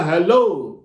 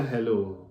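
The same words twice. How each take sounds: First: hello said louder, echoing the caller; matching loud hello. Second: hello dropped low and much softer; matching soft hello. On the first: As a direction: answer hello at the same raised level. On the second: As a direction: answer hello just as quietly and low. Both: Shown as a demonstration. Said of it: "तो आपको भी बोलना".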